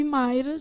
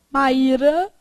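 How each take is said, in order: First: Mayra said MAI-ra, one gliding vowel; diphthong. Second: Maíra said ma-Í-ra, vowels apart; hiatus. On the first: Teacher labels the diphthong for pupils, Mayra stressed on MAI. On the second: Teacher labels the hiatus for pupils, Maíra stressed on Í. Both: Shown as a demonstration.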